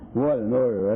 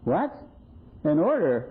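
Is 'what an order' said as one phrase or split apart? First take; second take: one phrase; split apart. First: Said as one exclamation without a break. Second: Broken into two short questions with a pause. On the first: The speaker calls it wrong. "I've never heard anybody exclaim" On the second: The speaker calls it right. "she read it as though it must have been an exclamation point or something was missing"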